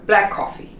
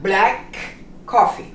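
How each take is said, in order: First: The K sounds merge into one, words joined. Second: Both K sounds are pronounced separately. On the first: The speaker calls it right. "almost putting the two words together" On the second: The speaker calls it wrong.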